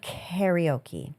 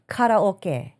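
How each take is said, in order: First: It is pronounced the usual English way. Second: It is pronounced the Japanese way.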